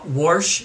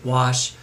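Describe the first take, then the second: First: The word has an R sound before the sh. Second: The word has no R sound before the sh. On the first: The speaker calls it wrong. "with an R" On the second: The speaker calls it right. "there wasn't an R in war in wash"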